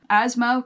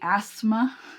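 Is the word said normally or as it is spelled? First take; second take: normally; as spelled. First: It is said with its usual pronunciation. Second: It is said sounding every letter, as spelled.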